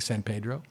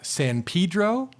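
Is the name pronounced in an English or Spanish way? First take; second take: Spanish; English. First: The name is pronounced with Spanish-style sounds. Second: The name is pronounced with English-style sounds. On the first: This is how the words are said in Spanish. "normally you would say San Pedro" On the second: This is the local name of the town. "is not the, the correct Spanish pronunciation, but that is the name of the town"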